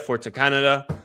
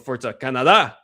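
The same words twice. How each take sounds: First: It is said in the speaker's ordinary accent. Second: It is said in an imitated Latino-style accent.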